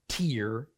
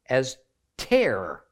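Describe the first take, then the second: First: The vowel is a long 'ee' sound. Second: The vowel is not an 'ee' sound. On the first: It means the drop that comes from crying. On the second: It means to rip something.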